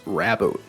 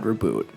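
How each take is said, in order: First: The first syllable sounds like rab. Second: The first syllable sounds like ree. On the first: The speaker calls it right. "it's Raboot" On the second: The speaker calls it wrong. "not Reboot"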